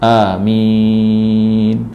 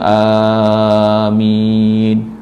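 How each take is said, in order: First: The first vowel is kept short. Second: The first vowel is drawn out long. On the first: "ataupun pendek a" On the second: "kadang-kadang a tu panjang"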